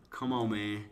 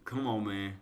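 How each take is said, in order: Both takes have the same delivery.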